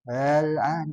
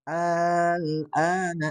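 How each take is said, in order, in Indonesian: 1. Vokal pembuka pendek dan dilunakkan. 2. Vokal pembuka dibaca panjang. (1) "Gimana kalau ditashilkan" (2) "jadi alnya itu jadi baca panjang, ... Selama enam harokat"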